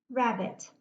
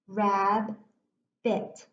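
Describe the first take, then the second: First: Said in the usual way. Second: "Rabbit" broken in two, Rab, then bit, with a clear pause; split into syllables. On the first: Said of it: "watch how easy it is for me to read it". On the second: Shown as a demonstration. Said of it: "broke this word into my two syllables".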